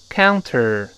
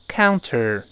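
Both takes have the same delivery.

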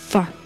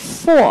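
First: The word is said weakly with a reduced vowel. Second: The word is said clearly with a full vowel.

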